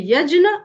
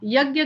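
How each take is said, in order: First: The middle cluster sounds like 'jny'. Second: The middle cluster sounds like 'gy'. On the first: The speaker calls it right. "Sanskrit के हिसाब से" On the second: The speaker calls it wrong. "हम लोग जो यज्ञ बोलते हैं वो गलत उच्चारण है"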